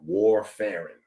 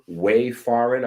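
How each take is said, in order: First: The first syllable sounds like "war". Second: The first syllable sounds like "way". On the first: "I pronounce it W A R, you know, like warfarin" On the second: "I'm probably pronouncing that wrong"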